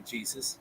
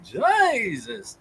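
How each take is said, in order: First: It is said in a plain, ordinary way. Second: It is said in an exaggerated preacher-like voice. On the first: The speaker calls it right. "Why can't they just say Jesus" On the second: The speaker calls it wrong. "instead of Jesus? ... Why do they always talk like that?"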